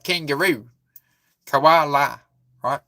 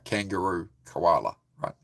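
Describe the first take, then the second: First: An Australian accent with pitch moving up and down. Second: A New Zealand accent with a flatter pitch. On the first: "Australians, it's a bit more, the pitch goes up and down with the sentences" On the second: "Whereas New Zealander would be like"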